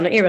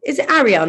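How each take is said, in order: First: "Ariel" said as AIR-ee-el; wrong pronunciation. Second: "Ariel" with open A, "ARR-ee-el"; correct pronunciation. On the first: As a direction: start "Ariel" like the word "air". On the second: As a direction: say "Ariel" starting on a short open vowel. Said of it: "have I been saying your name wrong?". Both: Retold or imitated.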